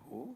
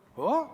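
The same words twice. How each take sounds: First: It is said at a lower pitch. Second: It is said at a higher pitch. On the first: It is how one talks to a girlfriend. "हे प्रेयसीबरोबरचं झालं" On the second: It is how one talks to a wife, closing off further talk. "थोडा pitch वर असतो"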